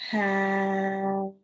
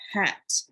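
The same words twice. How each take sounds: First: The sounds are slid together slowly. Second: The word is said quickly as one unit.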